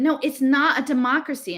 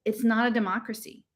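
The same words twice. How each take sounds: First: Higher, insistent rebuttal; insistent contradiction. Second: Gentle. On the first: Girl contradicts her friend in a political quarrel, insistent. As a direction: push back firmly in an argument. Acted escalating quarrel over democracy. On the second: Girl gently corrects her friend after the quarrel. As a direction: correct them kindly, without pushing. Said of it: "really gently". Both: Acted.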